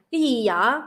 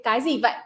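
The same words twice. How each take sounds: First: Southern Vietnamese, gì and vậy with y sounds; Southern Vietnamese accent. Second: Northern Vietnamese, gì as zee and vậy with a v; Northern Vietnamese accent. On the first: Teaching the difference to listeners, Southern Vietnamese accent. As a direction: give the Southern Vietnamese version. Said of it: "And the Southern accent be like". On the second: Teaching the difference to listeners, Northern Vietnamese accent. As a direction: give the Northern Vietnamese version. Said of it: "That's in the Northern accent". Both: Shown as a demonstration.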